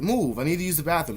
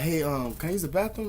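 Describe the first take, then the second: First: Curt, higher mock command; brusque retold demand; imitated rude demand. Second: Tentative question, lifting high at the end; courteous demo question; polite request. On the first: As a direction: order it bluntly, imitating a rude guest. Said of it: "That's how she fucking said it". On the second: Shown as a demonstration. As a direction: ask it gently with a rising finish. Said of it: "then you ask me politely".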